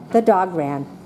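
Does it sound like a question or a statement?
statement. It is said as a plain statement.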